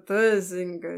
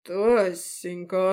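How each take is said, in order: First: Slurred tipsy voice; drunk. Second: Slow, drawn-out feigned innocence; fake surprise. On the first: Acted. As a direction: slur the name like a drunk. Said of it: "заплетающимся языком". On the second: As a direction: stretch the name in false surprise. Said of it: "фальшиво удивился".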